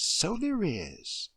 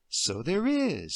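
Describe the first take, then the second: First: Higher, very slow repeat, savoring it; slower indulgent echo. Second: Slow, gentle humouring agreement; slow indulgent. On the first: Deirdre repeating her agreement to Emily, drawn out. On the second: Deirdre gently humouring Emily at the brush. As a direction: humour the child slowly. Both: Acted.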